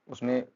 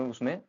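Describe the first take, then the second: No difference in how they are said.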